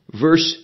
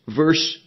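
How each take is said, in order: Both takes have the same delivery.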